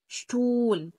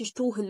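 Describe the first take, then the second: First: No h sound is heard in the middle. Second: An h sound is heard in the middle. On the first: The speaker calls it right. "الها في النص ... لا، شتول" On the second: The speaker calls it wrong. "ما تقولش شتوهل مثلا"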